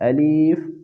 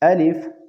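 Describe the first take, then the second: First: The middle vowel is stretched into a long ee. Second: The middle vowel is short and quickly said. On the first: The speaker calls it wrong. "या का इजाफा करके इसी तरह पढ़ते हैं" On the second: The speaker calls it right. "इसको जल्दी के साथ पढ़े"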